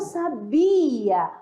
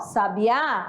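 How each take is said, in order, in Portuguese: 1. O acento está na segunda sílaba. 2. O acento está na última sílaba. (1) "a sílaba forte, né, está na segunda" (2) "a sílaba mais forte está na última"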